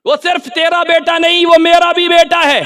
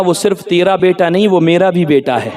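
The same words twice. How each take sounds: First: Raised, sustained preacher's chant; high ringing repeat. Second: Low, soft quoted words; hushed pronouncement. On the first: Preacher proclaiming the quote to the crowd, high ringing. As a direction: lift it high and hold the pitch. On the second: Prophet telling Abu Saleh about his son, hushed. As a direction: say it low and quietly, as in a dream. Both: Acted.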